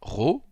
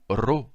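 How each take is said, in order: First: The R sounds like a French R. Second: The R sounds like a Spanish R. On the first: "comme en français" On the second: "comme en espagnol"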